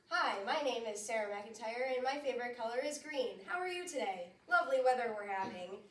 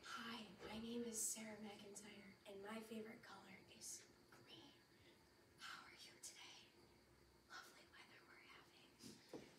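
First: It is said in a lively radio-host voice. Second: It is whispered quietly with more pauses.

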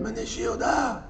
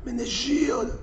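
First: The name is said with a hissing voice. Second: The name is said with a hissing voice.

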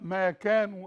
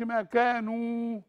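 First: The long vowel keeps its normal single length. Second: The long vowel is stretched to double length. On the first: The speaker calls it right. "الواو واحدة بس مش اتنين" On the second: The speaker calls it wrong. "ما أقولش ما كانوا"

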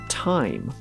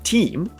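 First: The vowel is an 'eye' diphthong. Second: The vowel is a long 'ee' sound. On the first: This is the present-day pronunciation. "we now say" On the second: This is the older medieval pronunciation. "Chaucer would have said"

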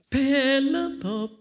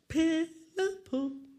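First: The call is said a little louder. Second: The call is said very softly. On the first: The sound is getting closer. "有没有觉得大声一点" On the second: The sound is coming from far away. "知道为什么这样小声吗？"

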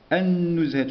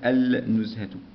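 First: The l sound merges into the following consonant. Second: The l sound is clearly pronounced. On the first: The speaker calls it right. "النزهة شدة، النزهة شمسية" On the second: The speaker calls it wrong. "وليس النزهة"

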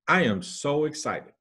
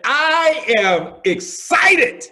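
First: The voice is flat and unenthusiastic. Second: The voice is raised and enthusiastic. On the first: The speaker is not convincingly excited. "just kind of a straight face and say" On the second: The speaker is convincingly excited. "raising my voice"

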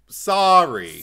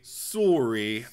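First: It is said with an American-style vowel. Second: It is said with a Canadian-style vowel. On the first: This is how the speaker says it. "I say like sorry" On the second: This is how someone else says it. "I don't say sorry"

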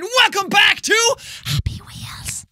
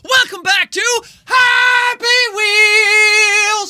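First: It is said quietly, without much energy. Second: It is said loudly, with strong energy.

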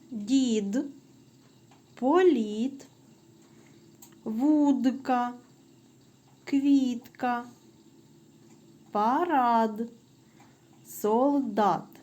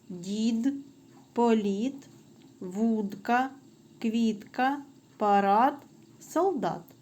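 First: The words are read at a moderate pace. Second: The words are read at a faster pace. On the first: "спочатку правильно" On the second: "Тепер швидше"

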